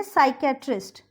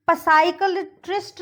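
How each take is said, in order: First: साइकेट्रिस्ट begun on S, P silent; साइकेट्रिस्ट starting sai; correct pronunciation demo. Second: पसाइकलट्रिस्ट begun with a sounded puh; पसाइकलट्रिस्ट starting puh-sai; mispronunciation demo. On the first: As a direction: say साइकेट्रिस्ट without any P. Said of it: "इसको हम बोलेंगे". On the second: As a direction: wrongly voice the P in पसाइकलट्रिस्ट. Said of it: "नहीं बोलेंगे इसको". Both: Shown as a demonstration.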